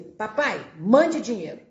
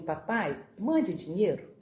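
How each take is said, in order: First: It is said in a rude, demanding tone. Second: It is said in a gentle, pleading tone.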